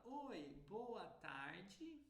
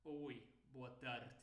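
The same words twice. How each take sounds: First: Slow, high, open Brazilian greeting; sing-song Brazilian accent, tarde ending djee. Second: Low, slow imitation of European Portuguese; European accent. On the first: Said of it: "Um brasileiro fala". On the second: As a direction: mimic a Portugal accent, swallow tarde's ending. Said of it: "um europeu vai falar". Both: Shown as a demonstration.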